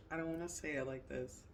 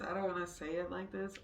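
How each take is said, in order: First: Said in the usual way. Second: Laughing. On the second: Real, not acted.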